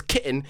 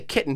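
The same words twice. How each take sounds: First: "kitten" with the middle letters swallowed; dropped letters. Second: Said in the usual way. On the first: Retold or imitated. Mocking the Englishman's speech, "kitten" with letters dropped. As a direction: say "kitten" in British style, dropping the t sound. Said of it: "didn't even fucking use all the letters". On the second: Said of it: "he doesn't say kitten".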